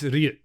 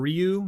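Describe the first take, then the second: First: The name has a Japanese pronunciation. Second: The name has an anglicized pronunciation. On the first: This is how the name is said in its original language. The speaker calls it right. "That's how you say it in Japanese" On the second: This is how players commonly said it years ago. The speaker calls it wrong. "You know how people used to say it? That's how it was back in the day"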